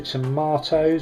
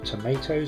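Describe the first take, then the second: First: Tomatoes is said with a British pronunciation. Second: Tomatoes is said with an American pronunciation.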